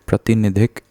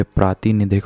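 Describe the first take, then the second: First: प्रतिनिधिक with a short first "pra"; wrong form. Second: प्रातिनिधिक with a long opening "praa"; correct form. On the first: Teacher showing students the faulty word, प्रतिनिधिक with short "pra". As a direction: say प्रतिनिधिक without lengthening the first vowel. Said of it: "तो ये प्रातिनिधिक होता है". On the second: Teacher giving students the correction, प्रातिनिधिक with long "praa". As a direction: lengthen the first vowel of प्रातिनिधिक. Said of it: "ये प्रातिनिधिक होता है". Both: Shown as a demonstration.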